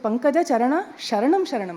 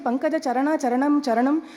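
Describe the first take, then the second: First: The last two words begin with an 'sh' sound. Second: The last two words begin with a 'ch' sound. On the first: The words mean seeking refuge. The speaker calls it right. "I seek refuge in the lotus feet" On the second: The words mean feet, not refuge. The speaker calls it wrong. "it is lotus feet, feet, feet"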